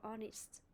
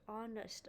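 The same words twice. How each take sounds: First: "honest" as ON-ist, silent h; teacher's other version of "honest", ending -ist; alternative pronunciation. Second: "honest" as ON-uhst, silent h; teacher's example of "honest", ending -uhst; pronunciation demo. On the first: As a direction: model "honest" with a short i in the ending. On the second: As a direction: model "honest" with a schwa in the ending. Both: Shown as a demonstration. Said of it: "or honest".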